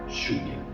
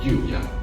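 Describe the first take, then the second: First: The LL sounds like the sh in show. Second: The LL sounds like the y in yes. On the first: This is the Uruguayan and Argentine pronunciation. "pronounced like, like for example, the S H in show" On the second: This is the neutral pronunciation. "the most neutral way to pronounce these two letters is pretty similar to the Y in yes"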